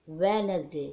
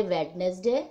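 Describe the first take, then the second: First: वेडनेसडे said wenz-day with the d silent; spoken pronunciation. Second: वेडनेसडे said wed-nes-day with the d sounded, as written; spelling pronunciation. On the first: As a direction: say वेडनेसडे the usual way, drop the d. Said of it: "डी को silent कर देते हैं". (वेडनेसडे बोलते समय डी silent) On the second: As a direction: sound every letter of वेडनेसडे, d included. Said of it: "लिखते वेडनेसडे". (वेडनेसडे को लिखावट के हिसाब से, डी बोलकर) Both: Shown as a demonstration.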